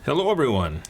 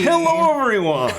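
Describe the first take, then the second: First: It is said in a subdued, low-energy way. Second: It is said with more energy.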